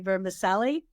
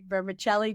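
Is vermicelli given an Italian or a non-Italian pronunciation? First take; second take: non-Italian; Italian. First: The word has a non-Italian pronunciation. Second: The word has an Italian-style pronunciation. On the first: This is how the listener says it. "but I think you say" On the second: This is how people of Italian heritage say it. "Being of Italian her- heritage, we say"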